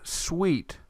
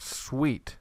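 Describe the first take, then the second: First: "sweet" said slowly with a clear wee glide; example word. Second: "sweet" repeated softly with a falling wee; quiet repeat. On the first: Teacher shows the we sound with an English word, slowly. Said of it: "like our word sweet". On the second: Teacher echoes the example word softly for students. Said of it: "makes that we sound". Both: Shown as a demonstration.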